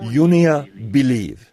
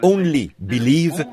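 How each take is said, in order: First: The first word is said as 'yonia'. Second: The first word is said as 'only'. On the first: The speaker calls it wrong. "ils disaient « Yonia Believe »" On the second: The speaker calls it right. "au lieu de prononcer « Only Believe »"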